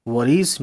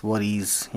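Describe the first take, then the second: First: Worries with a clear z sound at the end; pronounce worries. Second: Worries said softer, closing on a z sound; pronounce worries. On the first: (worries को आख़िर में एस की आवाज़ के साथ) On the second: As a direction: repeat worries, landing the final ES. (worries को धीमे से, आख़िरी एस साफ़) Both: Shown as a demonstration. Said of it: "इस तरह से कहना है".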